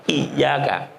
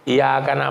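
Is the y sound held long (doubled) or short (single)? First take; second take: doubled; single. First: The y sound is held long and doubled. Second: The y sound is short, not doubled. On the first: The speaker calls it right. "pakai tasdid" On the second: The speaker calls it wrong. "iya-nya nggak ditasdid ... itu salah"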